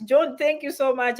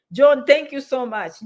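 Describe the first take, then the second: First: Said in the usual way. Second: Louder, slower heartfelt thank-you; slow, emphatic thanks with the name stressed. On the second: Real, not acted. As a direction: lean in and really thank him. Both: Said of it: "I know I'm saying thank you so much".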